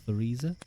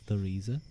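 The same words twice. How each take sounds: First: It begins with a soft 'th' sound. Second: The same.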